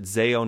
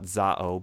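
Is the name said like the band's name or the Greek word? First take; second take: band; Greek. First: It is said like the band's name. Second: It is said like the Greek word. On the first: This is the name the ministry uses. The speaker calls it right. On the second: This is the name the ministry does not use. The speaker calls it wrong. "not Zao, ... not like their Greek word"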